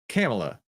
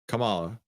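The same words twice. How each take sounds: First: The name rhymes with Pamela. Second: The name does not rhyme with Pamela. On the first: The speaker calls it right. "It's Kamala. ... like Pamela" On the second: The speaker calls it wrong. "it's not Kamala, because you wouldn't say Pamela"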